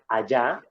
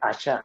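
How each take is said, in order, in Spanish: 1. La consonante del medio es un sonido 'y' suave. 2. La consonante del medio es un sonido 'sh' estridente. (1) "en vez de decir allá" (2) "dice allá"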